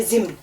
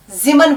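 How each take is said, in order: First: जिम्न with मीम closed, no vowel, zimn; जिम्न in one closed syllable, the right way; correct pronunciation. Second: जिमन with an extra vowel, mi-man opened up; जिमन as two open syllables, the wrong way; wrong pronunciation. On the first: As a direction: clip जिम्न tight as zimn, just the sound of म. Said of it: "बस उसकी आवाज निकालनी है". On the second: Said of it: "जिमन नहीं पढ़ना है". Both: Shown as a demonstration.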